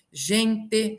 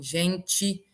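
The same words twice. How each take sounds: First: "gente" como gen-tê, devagar; e final mantido. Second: "gente" dito gentchi; e final como i. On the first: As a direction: diga "gente" com t seco e e final. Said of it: "se transforma em gente". ("gente" silabado, terminando em tê) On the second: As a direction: termine "gente" com som de tchi. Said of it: "se transforma em". ("gente" com t chiado e i final) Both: Shown as a demonstration.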